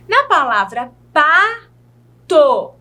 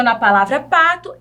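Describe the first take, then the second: First: "Na palavra pato" said slowly, with each syllable of "pato" stretched; slow emphasis. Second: Said in the usual way. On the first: Shown as a demonstration. Teacher showing the syllables in pato, slow emphasis. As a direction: draw out "pato" so the two syllables are heard. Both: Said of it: "a mesma coisa".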